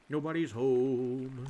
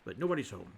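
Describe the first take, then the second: First: NOBODY'S HOME stretched slowly on a level tone; drawn out. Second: Said in the usual way. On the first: Real, not acted. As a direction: hold the vowel in HOME long. Repeats it drawn out to self.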